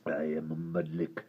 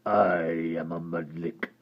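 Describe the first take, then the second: First: Low, soft gravelly creature voice; deep creature voice. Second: Low gravelly creature voice; hideous creature speaking low; deep creature voice. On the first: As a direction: retake the hideous creature line low. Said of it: "Mudlik does my voice in". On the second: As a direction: rumble it like a hideous lake creature. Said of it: "said the hideous creature". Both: Acted.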